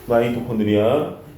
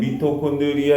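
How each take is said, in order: First: The first syllable sounds like 'my'. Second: The first syllable sounds like 'mee'. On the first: This is how it is said nowadays. "요즘 발음이 다 미, 아이 이렇게 바뀌어요" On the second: This is how it used to be said. "옛날에는 미토콘드리아 이렇게 불렀거든?"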